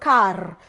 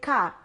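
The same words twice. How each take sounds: First: The final r sound is clearly pronounced. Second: The final r sound is left silent. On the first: "American English is rhotic. And that's why they talk about car" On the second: "we don't pronounce the R in words. We say car"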